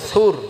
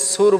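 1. s এর উচ্চারণ হালকা ও পাতলা। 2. s এর উচ্চারণ ভারী ও মোটা। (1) "সাটাকে আমরা পাতলা করে উচ্চারণ করবো" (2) "সুর বলবো না আমরা"

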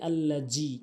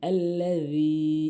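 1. মধ্যের ব্যঞ্জনটি z ধ্বনি। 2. মধ্যের ব্যঞ্জনটি একটি ঘোষবান th ধ্বনি। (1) "অধিকাংশ লোক বলি আল্লাজি" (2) "এখানে জাল এনে উচ্চারণ করতে হবে"

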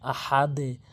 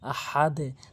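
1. শেষের 'দ' এর পরে নিচু 'e' ধ্বনি শোনা যায়। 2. শেষের 'দ' এর পরে নিচু 'e' ধ্বনি শোনা যায়।

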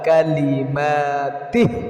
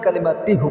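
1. শব্দটি 'i' স্বরধ্বনি দিয়ে শেষ হয়। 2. শব্দটি 'u' স্বরধ্বনি দিয়ে শেষ হয়। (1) "কালিমাতিহিও বলতে পারেন" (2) "কালিমাতিহু বলতে পারেন"

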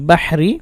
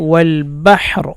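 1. শব্দটি ছোট i স্বরে শেষ হয়। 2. শব্দটি ব্যঞ্জন r দিয়ে শেষ হয়। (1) "রা জের রি বাহরি" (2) "অকফ করলে র সাকিন হবে"

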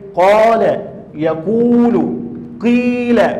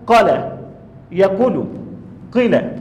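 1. حروف المد تُمَدّ مدّها الكامل. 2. حروف المد تُقصَر. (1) "ما يستوي إلا لما تأتي بالمد الطبيعي" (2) "لو احنا شلنا منها حرف الألف اللي هو حرف المد، ... أو لم نأتي به كاملا"

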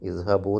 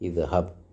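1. ഈ വാക്ക് ഹ്രസ്വമായ u സ്വരത്തിലാണ് അവസാനിക്കുന്നത്. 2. ഈ വാക്ക് ശുദ്ധമായ b വ്യഞ്ജനത്തിലാണ് അവസാനിക്കുന്നത്. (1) "ഇദ്ഹബു എന്നല്ല"

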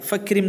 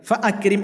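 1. ഗ്ലോട്ടൽ സ്റ്റോപ്പ് ഒഴിവാക്കുന്നു, fakrim എന്നതിലേക്ക് ചേരുന്നു. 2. akrim-ന് മുന്നിലുള്ള ഗ്ലോട്ടൽ സ്റ്റോപ്പ് നിലനിർത്തുന്നു. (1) "എന്ന് പറയൂല" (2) "എന്ന് തന്നെ പറയും"

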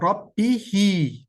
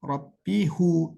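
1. Son hece i ünlüsüyle okunur. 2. Son hece u ünlüsüyle okunur. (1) "Mesela Rabbihi diyeceğiz" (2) "Rabbihu değil"

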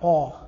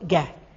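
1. يُنطق صوت q بعيدًا إلى الخلف وبوضوح. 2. يُنطق صوت q إلى الأمام أكثر، قريبًا من k. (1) "اذا قلت القاف الفصيحه ق" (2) "القاف التميمية العامية البدوية هذه هي قه، تنطق قه"

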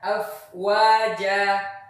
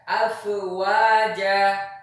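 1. Huruf f ditahan diam tanpa pantulan. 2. Huruf f dilepas dengan pantulan yang bergema. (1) "Misalnya ketika membaca afwaja" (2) "bukan afwaja"

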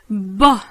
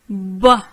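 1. La voyelle disparaît et le b est doublé. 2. La voyelle disparaît et le b est doublé.

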